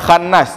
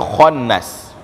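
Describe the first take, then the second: First: The first sound is thin with an open a. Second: The first sound is thick with a rounded o. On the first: The speaker calls it wrong. "bukan khannas" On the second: The speaker calls it right. "ini huruf tebal... angkat ke atas suara kita"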